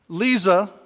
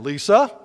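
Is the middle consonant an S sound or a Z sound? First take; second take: Z sound; S sound. First: The middle consonant is a Z sound. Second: The middle consonant is an S sound. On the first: The speaker calls it right. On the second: The speaker calls it wrong.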